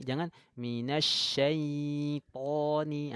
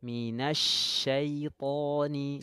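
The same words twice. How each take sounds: First: Minasyaitoni with the ya wrongly stretched; overlong ya. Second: Minasyaitoni slow, ya kept short and soft. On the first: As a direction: drag out the ya, the mistake. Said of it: "ndak boleh". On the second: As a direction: soften the ya, no stretching. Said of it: "cukup dilembutkan saja". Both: Shown as a demonstration.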